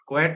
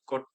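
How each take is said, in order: First: The vowel sounds like 'eh', as in 'kwet'. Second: The vowel sounds like 'oh', as in 'kote'. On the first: The speaker calls it wrong. "क्वेट नहीं" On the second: The speaker calls it right. "कोट कोट"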